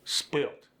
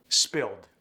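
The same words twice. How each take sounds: First: "Spilt" ending in T, not D. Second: Said in the usual way. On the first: Shown as a demonstration. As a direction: sneak a T onto the end of "Spilt". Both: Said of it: "sneak a T in".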